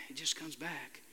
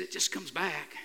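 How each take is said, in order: First: Much softer, trailing away; fading echo. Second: Said in the usual way. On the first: Retold or imitated. Pastor quotes the young man, repeating it much softer. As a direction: let it fade out like an echo.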